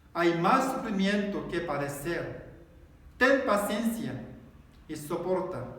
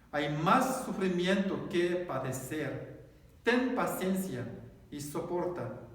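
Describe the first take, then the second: No difference in how they are said.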